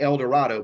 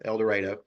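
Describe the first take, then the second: First: The middle syllable does not rhyme with tornado. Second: The middle syllable rhymes with tornado. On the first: This is how the name looks when written. The speaker calls it wrong. "it looks like El Dorado" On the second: This is how people from Arkansas say it. The speaker calls it right. "it's pronounced like tornado"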